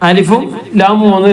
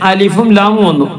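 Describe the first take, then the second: Both takes have the same delivery.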